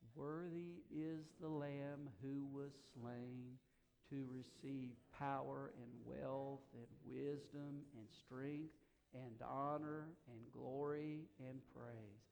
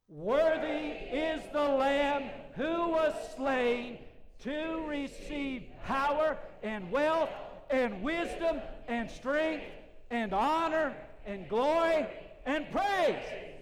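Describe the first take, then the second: First: It is said quietly. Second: It is said at full volume.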